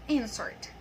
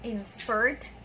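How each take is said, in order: First: Insert as a noun, IN-sert; stress on first syllable. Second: Insert as a verb, in-SERT; stress on second syllable. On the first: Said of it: "we stress the first syllable". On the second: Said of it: "stress is in the second syllable". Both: Shown as a demonstration.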